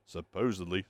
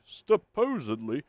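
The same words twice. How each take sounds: First: Said in the usual way. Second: SUPPOSEDLY drawn out slowly and pitched high; exaggerated emphasis. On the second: Real, not acted. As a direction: stretch out "supposedly", higher, with mock doubt. Repeats word for doubtful emphasis.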